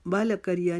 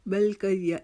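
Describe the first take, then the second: First: बल करिया with an extra vowel, "bala kariya"; wrong-way demo, bounce the l of बल; bouncing l. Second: बल करिया with l running straight into k; careful model, "bal-kariya"; no bounce on l. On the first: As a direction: release बल as "ba-la" before करिया. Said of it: "नहीं पढ़ेंगे". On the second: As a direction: close the l of बल without any added vowel. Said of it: "बल करिया नहीं पढ़ेंगे". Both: Shown as a demonstration.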